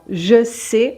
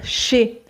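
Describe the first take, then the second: First: The vowel of je is fully pronounced. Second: The vowel of je is dropped entirely.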